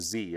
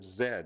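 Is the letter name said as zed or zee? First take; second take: zee; zed. First: The letter is said as zee, American style. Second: The letter is said as zed.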